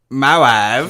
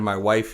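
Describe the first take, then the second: First: It is said in a Borat impression. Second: It is said in his normal voice.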